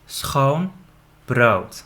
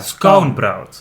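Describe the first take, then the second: First: The sound after the s is a throaty g. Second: The sound after the s is a hard k. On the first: "So say it with me" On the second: "if you can't do the g, you can say k"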